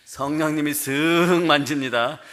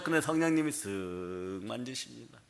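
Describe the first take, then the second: First: Slowly, leaning on 쓱 with a rise; the Spirit's touch told slowly, 쓱 lifted; slow, stressed 쓱. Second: Gentle hush. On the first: Shown as a demonstration. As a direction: draw out 쓱 gently at full voice. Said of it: "어떻게 한다고요?". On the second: Acted. Spirit gently touching the believer.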